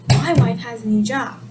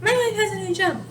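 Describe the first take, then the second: First: "My wife" leaned on as the topic; stress on the topic. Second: Said in the usual way. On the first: Shown as a demonstration. Teacher showing emphasis on the subject, "My wife" stressed. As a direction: punch "My wife", then finish the sentence. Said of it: "But if you wanna emphasize". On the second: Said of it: "you're just letting them know".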